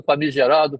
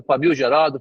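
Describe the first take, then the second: First: Said in the usual way. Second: "família gerado" split into two words, with "família" said clearly; misheard word. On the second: Retold or imitated. The jagunço mishearing famigerado as família gerado. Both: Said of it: "se ele veio perguntar a mim".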